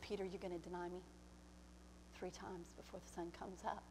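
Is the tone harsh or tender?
tender. It is said in a tender, loving tone. It is said out of love. The speaker calls it right. "But I love you so much"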